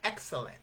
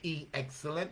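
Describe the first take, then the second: First: The E sound is blended into the word. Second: An E sound is said separately before the word. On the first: The speaker calls it right. "we say excellent" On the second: The speaker calls it wrong. "we don't say E excellent"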